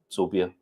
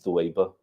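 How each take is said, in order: First: The name begins with an s sound. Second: The name begins with a th sound. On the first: "Indian Pakistani people, they pronounce it Sobia" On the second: This is the original Arabic form of the name. "but the Arabic is Thuwaiba"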